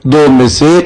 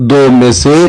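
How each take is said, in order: Both takes have the same delivery.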